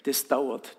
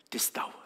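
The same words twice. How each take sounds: First: Said in the usual way. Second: Hushed echo. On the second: Shown as a demonstration.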